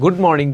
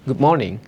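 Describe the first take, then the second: First: The d in 'good' is fully released. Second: The d in 'good' is a glottal stop. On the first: The speaker calls it wrong. "এটাকে কিন্তু ব্রিটিশরা গুড morning বলে না" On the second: The speaker calls it right. "That means ডিটাকে একটা glottal করে পড়ে"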